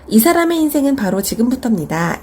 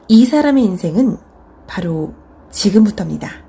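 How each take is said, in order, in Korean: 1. 'baro' 뒤에는 쉼 없이 자연스럽게 이어져요. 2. 'baro' 뒤에 짧게 쉬어요. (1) "이렇게 하는 것보다는" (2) "바로 뒤에 살짝 쉬는 거죠"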